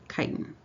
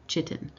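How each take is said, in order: First: The word starts with a k sound. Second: The word starts with a ch sound. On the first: The speaker calls it right. "It's pronounced like K Y T I N" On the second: The speaker calls it wrong. "not chitin"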